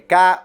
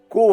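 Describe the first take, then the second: First: It is said like the letter K. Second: It is said with a clear 'o' vowel. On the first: The speaker calls it wrong. "porque eu esqueço disso e pronuncio errado algumas vezes" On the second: The speaker calls it right. "É Ko o correto, de Kokoro"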